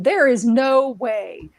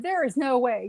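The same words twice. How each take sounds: First: Like Rumpelstiltskin. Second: Said in the usual way. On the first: Retold or imitated. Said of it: "like Rumpelstiltskin". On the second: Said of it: "I said".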